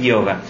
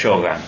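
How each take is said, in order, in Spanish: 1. La palabra se dice con un estilo estándar. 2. La palabra se dice con un estilo gaucho rural. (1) "Y la correcta es yoga" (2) "la forma gaucha es yoga"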